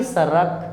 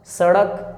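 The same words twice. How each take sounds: First: सड़क wrongly said as सरक; light tapped र in सरक; mispronounced with र. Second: सड़क with flicked retroflex ड़; सड़क, half-strength ड; retroflex flap ड़. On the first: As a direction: say सरक with no retroflex flick. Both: Shown as a demonstration. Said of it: "ना कि सरक".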